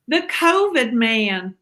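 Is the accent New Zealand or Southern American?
Southern American. It is said in a Southern American accent.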